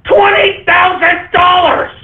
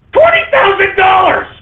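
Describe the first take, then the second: First: Higher yell, each word dragged out slowly; slower, disbelieving shout of the price; slow outraged shout. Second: Stunned shouting at the price; outraged shout. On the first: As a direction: stretch the price out, still shouting. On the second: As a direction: blurt the price out in disbelief. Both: Real, not acted.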